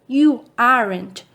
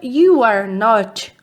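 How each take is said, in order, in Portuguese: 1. As palavras são unidas numa forma contraída. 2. As palavras são ditas por extenso, não unidas. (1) "abreviação" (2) "forma extensa"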